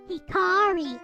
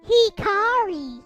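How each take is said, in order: First: It is said fast and evenly, Japanese style. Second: It is said with heavy, drawn-out stress, American style.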